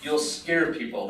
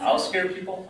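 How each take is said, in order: First: Slow "You'll scare people", weight on "scare", falling; firm falling statement. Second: High, questioning "I'll scare people?"; incredulous echo. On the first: Her firm answer in acted quarrel. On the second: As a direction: throw "I'll scare people?" back in disbelief. His incredulous echo of her answer. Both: Acted.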